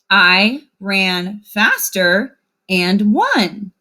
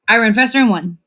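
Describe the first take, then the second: First: The words are said with clear separations. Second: The words are run together without breaks. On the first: The writing has spaces between words. The speaker calls it right. "when we have spaces between our words, we can read it like this" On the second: The writing has no spaces between words. The speaker calls it wrong. "your sentence will sound very funny like this"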